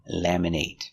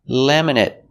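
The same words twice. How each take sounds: First: The last syllable has a long A sound. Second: The last syllable has a short 'it' sound. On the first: It is used as a verb. "Laminate is a verb with a long A sound" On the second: It is used as an adjective. "We make the short it, it sound"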